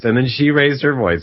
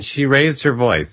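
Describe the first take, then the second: First: Mildly raised voice. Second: Said in the usual way. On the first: Retold or imitated. Friend and teller trading raised voices, mildly raised. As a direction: voice edging up in mock escalation.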